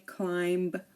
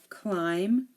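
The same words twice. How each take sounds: First: The final B is pronounced. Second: The final B is silent. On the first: The speaker calls it wrong. "We don't say climb" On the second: The speaker calls it right. "So the B is silent"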